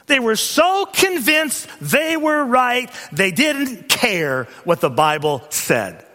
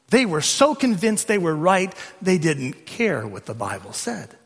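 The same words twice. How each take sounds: First: "so convinced" high and drawn out, each word weighted; slow, high, hammered stress on "so convinced they were right"; emphatic repetition. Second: Said in the usual way. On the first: Real, not acted. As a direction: stretch "so" and "didn't care" with preacher's force. Repeats the point for emphasis.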